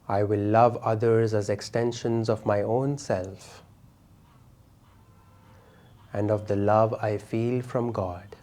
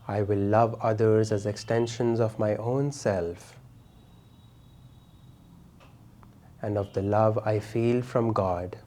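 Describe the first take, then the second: No difference in how they are said.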